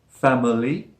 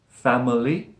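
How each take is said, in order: No difference in how they are said.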